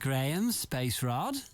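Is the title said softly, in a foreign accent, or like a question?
question. It is said with a questioning tune. "It's not a question"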